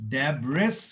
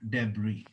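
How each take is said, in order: First: The word ends with an audible s sound. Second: The word ends in a vowel, no s sound. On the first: The speaker calls it wrong. "Sir लिखा तो डेब्रिस है" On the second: The speaker calls it right. "लेकिन पढ़ेंगे क्या? डेबरी"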